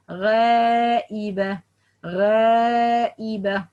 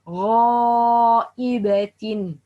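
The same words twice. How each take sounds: First: Light, held first vowel in غائبة, almost eh; wrong light alif. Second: Slow, heavy first vowel in غائبة; correct heavy alif. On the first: Teacher shows the mistake, light alif. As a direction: say غائبة with a thin, fronted long aa. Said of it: "No, that's wrong". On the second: Teacher models the right way, heavy alif. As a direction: hold غائبة with a dark, full back aa. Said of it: "pronounce it in a right way". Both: Shown as a demonstration.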